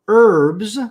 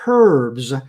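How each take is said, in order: First: The word begins without an H sound. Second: The word begins with a breathy H sound. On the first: "with a silent H" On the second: "where the H is aspirated"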